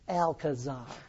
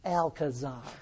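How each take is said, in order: First: The name is said with an English pronunciation. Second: The name is said with an English pronunciation.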